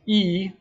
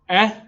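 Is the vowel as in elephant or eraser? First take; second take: eraser; elephant. First: The vowel sounds as in eraser. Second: The vowel sounds as in elephant. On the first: "like eraser" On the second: "like elephant"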